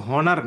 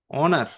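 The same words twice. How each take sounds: First: হনার with a sounded H at the start; wrong pronunciation with H. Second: অনার starting on the vowel, no H; correct silent-H pronunciation. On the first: Teacher warns students about "honor", H voiced in হনার. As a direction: put an audible "h" before the "o" in হনার. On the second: Teacher models "honor" for students, silent H in অনার. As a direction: leave the "h" off, open অনার on "o". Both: Shown as a demonstration. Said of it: "এটা কিন্তু হনার না".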